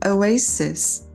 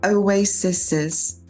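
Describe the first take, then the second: First: The name is said with no extra syllable. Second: An extra hissing syllable is added after the name. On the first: The speaker calls it right. "So you could say" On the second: The speaker calls it wrong. "that sounds very sus, sus, sus"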